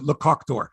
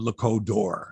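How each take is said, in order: First: The middle word ends with a k sound. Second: The middle word ends with a d sound. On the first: The speaker calls it right. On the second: The speaker calls it wrong.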